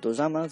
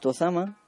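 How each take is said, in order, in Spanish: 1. La palabra se dice con pronunciación japonesa. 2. La palabra se dice con pronunciación española.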